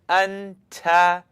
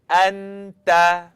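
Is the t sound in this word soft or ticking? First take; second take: ticking; soft. First: The t sound has a sharp, ticking release. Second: The t sound is soft, without a tick. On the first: The speaker calls it wrong. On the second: The speaker calls it right.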